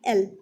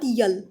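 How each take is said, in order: First: It begins directly with a vowel sound. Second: It begins with a y-sound before the vowel. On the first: The speaker calls it right. "एल एल not यल" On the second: The speaker calls it wrong. "Not यल"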